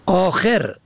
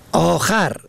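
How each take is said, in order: First: آخر said "aakher", ending in -er; e in second syllable. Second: آخر said "aakhar", ending in -ar; a in second syllable. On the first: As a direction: say آخر as "aa-KHER". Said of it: "به کسر دوم". (آخر با کسر دوم، «آخِر») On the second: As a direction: say آخر as "aa-KHAR". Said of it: "به فتح دوم". (آخر با فتح دوم، «آخَر») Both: Shown as a demonstration.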